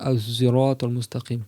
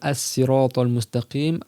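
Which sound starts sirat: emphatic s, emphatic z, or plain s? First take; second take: emphatic z; plain s. First: The word begins with an emphatic z sound. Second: The word begins with a plain s sound. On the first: "avec un zay emphatique" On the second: "avec un sin"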